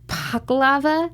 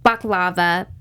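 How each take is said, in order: First: The word starts with a P sound. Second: The word starts with a B sound. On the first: This is the special, proper way to say it. The speaker calls it right. "you're supposed to have, like, a P to it" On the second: This is how most people say it. The speaker calls it wrong. "many people pronounce it baklava"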